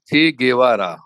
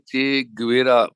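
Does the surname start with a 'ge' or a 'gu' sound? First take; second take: ge; gu. First: The surname starts with a 'ge' sound. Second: The surname starts with a 'gu' sound. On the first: The speaker calls it right. "ये बहुत ही साफ साफ उच्चारण वहां पर है" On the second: The speaker calls it wrong. "हम लोग अ, भारत में चे गुवेरा बोलते हैं, वो गलत है"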